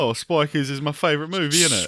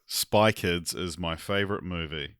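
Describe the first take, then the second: First: Put-on higher-pitched, common British accent. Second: Put-on slow, low try at a New Zealand accent; attempted Kiwi accent. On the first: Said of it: "Can you guys do a British accent?". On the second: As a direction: copy a Kiwi accent carefully, slowly. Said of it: "in a Kiwi accent".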